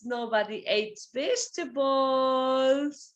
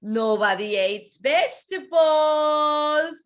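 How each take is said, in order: First: Said in the usual way. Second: "vegetables" stressed. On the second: Shown as a demonstration. Teacher models the sentence, stressing "vegetables". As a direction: hit "vegetables".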